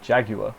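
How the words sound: The word is said with a British pronunciation. "In the U K we say Jaguar"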